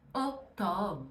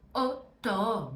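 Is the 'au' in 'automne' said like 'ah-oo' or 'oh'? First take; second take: oh; oh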